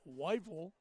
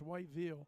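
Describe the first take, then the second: First: The name is said the way locals say it. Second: The name is said the way outsiders say it. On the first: The speaker has come to sound like a resident. The speaker calls it right. "you even say Whiteville like a local now" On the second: The speaker did not yet know the local way. The speaker calls it wrong. "fifteen years ago it was Whiteville, ... that wasn't right"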